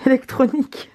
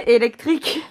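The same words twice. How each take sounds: First: Said in the usual way. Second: Laughing while repeating Électrique; amused mock echo of Électrique.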